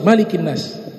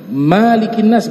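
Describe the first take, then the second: First: The first vowel of Malik is kept short. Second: The first vowel of Malik is lengthened. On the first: The speaker calls it right. "Dia harus qasar" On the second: The speaker calls it wrong. "enggak boleh"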